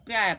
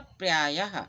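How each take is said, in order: First: The word ends without a final h sound. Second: The word ends with a soft h sound. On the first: The speaker calls it wrong. "प्रायः को प्राय पढ़ते हो" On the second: The speaker calls it right. "तो ये हुआ प्रायः"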